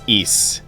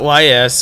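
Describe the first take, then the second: First: The name is said as a single word. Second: The name is spelled out as two letters. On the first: The speaker calls it right. "It's Ys" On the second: The speaker calls it wrong. "not Y S or anything like that"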